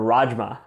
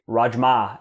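First: The stress is not on the last syllable. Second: The stress is on the last syllable.

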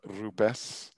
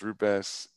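First: The R is slightly rolled. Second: The R is a plain English R. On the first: "If you speak one of the Latin languages, it should be rupes. There's a slight roll to the R" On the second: "The English version is rupes"

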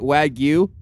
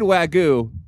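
First: The word is said with a Y sound. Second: The word is said without a Y sound. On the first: The speaker calls it right. "Is it Wagyu with a Y?" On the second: The speaker calls it wrong. "You said Wagyu"

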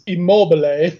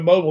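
First: The name is pronounced the Italian way. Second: The name is pronounced the English way. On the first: "the Italian pronunciation is Immobile" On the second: "if you just want to call him Immobile, that's fine"

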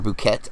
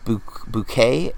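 First: The final T is pronounced. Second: The final T is silent. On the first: "I think they pronunciated the T" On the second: "I think is how you say it"

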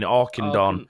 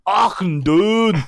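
First: The name is said in a plain accent. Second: The name is said in a Scottish accent.

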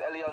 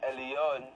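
First: The word is repeated quickly, blurring toward Alion. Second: The word is said slowly with a clear E. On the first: "If I said Elion, Elion, Elion... it sounds like Alion" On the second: "But it's Elion, Elion, El, when it's not speeded up"

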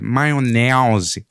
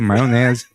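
First: It has an exaggerated, stereotyped carioca accent. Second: It has a natural, everyday carioca accent.

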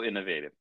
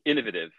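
First: It is said in a plain, everyday way. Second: It is said in a fancier, affected way.

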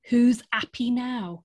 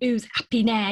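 First: It is said in a neutral accent. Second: It is said in a Cockney accent.

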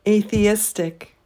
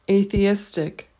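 The two takes are said the same way.

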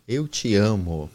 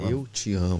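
First: It is said in a plain reading voice. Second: It is said in a late-night radio announcer voice.

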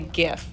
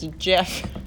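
First: The word starts with a hard G sound. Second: The word starts with a J sound. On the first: This is how the speaker habitually says it. The speaker calls it wrong. "I feel like I say GIF" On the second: This is how the speaker thinks it should be said. The speaker calls it right. "but I think it's GIF. ... When an I follows a G, it makes a J sound"

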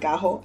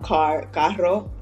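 First: The double r sounds like a j. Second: The double r is trilled. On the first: This is the Puerto Rican pronunciation. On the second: This is the standard pronunciation.

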